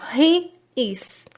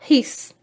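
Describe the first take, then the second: First: Two separate full words, he and is. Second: One contracted syllable, he's. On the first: "o he e junto com ele o acompanhamento, o verbo is" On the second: "da forma abreviada"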